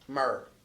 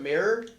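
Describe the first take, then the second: First: It is said in a southern accent, sounding like myrrh. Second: It is said in a standard American accent.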